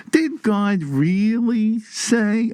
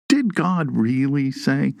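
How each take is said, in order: First: Put-on high, very drawn-out Brooklyn Jewish accent. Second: Lightly voiced serpent, slow questioning; slightly drawn-out question as the serpent; serpent's question. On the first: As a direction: stretch each word in a Brooklyn Jewish accent. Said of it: "with that Brooklyn Jew accent". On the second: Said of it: "the serpent opens with a question".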